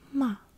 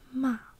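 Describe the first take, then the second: Both takes have the same delivery.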